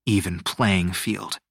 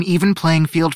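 First: Slow, lower dry echo; sarcastic. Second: Higher, projected official statement; earnest assurance. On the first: Teo inwardly scoffing at Luna's promise, sarcastic. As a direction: repeat it sceptically, dragging it out. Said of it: "held back a sarcastic snort". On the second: Luna promising competitors fairness, earnest assurance. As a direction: declare it firmly to the whole group. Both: A narrator's reading.

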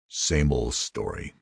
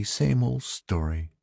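First: Soft, slow, bitter reply. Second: High, soft and slow, as the wife; sympathetic wife. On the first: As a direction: say it bitterly, drawn out and under-projected. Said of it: "Ed said bitterly". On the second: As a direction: voice the wife's resigned sympathy, gently drawn out. Wife sees their dejected faces. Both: A narrator's reading.

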